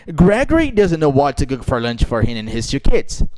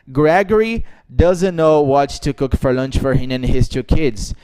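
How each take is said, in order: First: The sentence has a natural, varied melody. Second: The sentence has a flat, robotic melody. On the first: The speaker calls it right. "você tem que falar inglês naturalmente" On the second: The speaker calls it wrong. "eu não disse"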